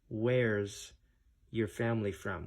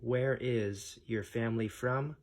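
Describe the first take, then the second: First: The verb is contracted into one short syllable. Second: The verb is said in full as two words.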